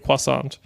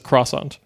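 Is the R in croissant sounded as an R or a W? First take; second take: W; R. First: The R is said like a W. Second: The R is said as a normal R. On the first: "they'll say the T, but they'll pronounce the R like as a W" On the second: "everyone in Ireland just says croissant. Like we'll say it as it's written"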